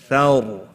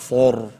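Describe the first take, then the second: First: The vowel is light and open, like 'ah'. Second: The vowel is heavy and rounded, like 'oh'. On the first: The speaker calls it right. "It's thar" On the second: The speaker calls it wrong. "and not thor"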